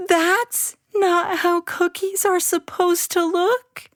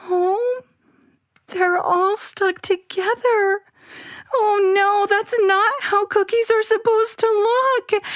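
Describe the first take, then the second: First: Put-on high, wavering disappointed child voice; on the edge of tears; dismayed child. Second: Put-on very high distressed child voice; upset child. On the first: Abby looking at ruined cookies, dismayed. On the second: Abby finding the cookie blob, upset. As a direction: close to crying.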